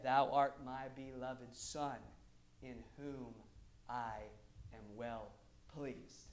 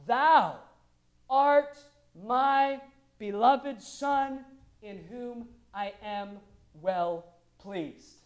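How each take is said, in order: First: Slow, hushed, low recital; low, reverent, unforced quote; undramatized voice of God. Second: Very slow, booming declaration easing off; loud, stately divine pronouncement; voice of God the Father. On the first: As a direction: say it softly and simply, with long pauses. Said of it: "I'm not even gonna try to dramatize it". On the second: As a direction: proclaim each word grandly, drawn out. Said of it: "gives us the direct quote of God the Father". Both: Acted.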